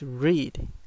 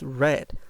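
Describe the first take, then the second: First: The vowel is long, rhyming with 'need'. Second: The vowel is short, like the color red. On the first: It is the present tense. "In present, the pronunciation is read" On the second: It is the past tense or past participle. "In past, ... the pronunciation is red, like the color"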